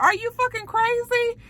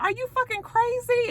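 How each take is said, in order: First: The same shocked shriek, now his own thought; incredulous high squeal. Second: Pitched way up in disbelief; incredulous high squeal. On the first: The recapper echoes the line to himself in a high incredulous squeal. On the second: Trace stares at Mel in a high incredulous squeal. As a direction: shriek it like he's lost his mind. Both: Retold or imitated.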